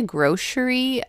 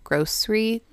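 First: Grocery said GROH-shree; sh pronunciation. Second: Grocery said GROHS-ree; s pronunciation. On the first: Co-host showing how some people say it, sh-sound grocery. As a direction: say "grocery" with an sh in the middle. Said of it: "some people say grocery". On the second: Co-host showing their own way, s-sound grocery. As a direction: say "grocery" with a plain s, no sh. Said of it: "and I say grocery". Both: Shown as a demonstration.

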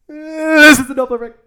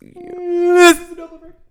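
First: High voice moving past the mic; Doppler effect demo. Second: Doppler effect demo. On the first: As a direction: swing past the microphone again. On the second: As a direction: voice swooping past the mic, high. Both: Shown as a demonstration. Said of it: "Do you want me to demonstrate it for you?".

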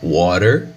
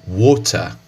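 First: Water with flapped t and r, wɔɾer; American water. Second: Water said wotɐ, crisp t, no r; British water, wotɐ. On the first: Teacher repeats the American water for contrast. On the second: Teacher repeats the British water for contrast. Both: Shown as a demonstration. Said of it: "no inglês britânico".

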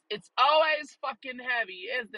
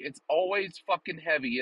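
First: Mock high voice. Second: Said in the usual way. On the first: Repeated line, high put-on voice.

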